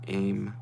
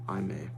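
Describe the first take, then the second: First: The name is said as one syllable. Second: The name is said as two syllables.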